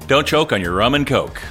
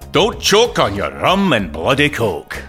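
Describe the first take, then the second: First: It is said in the speaker's normal voice. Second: It is said in a put-on foreign accent.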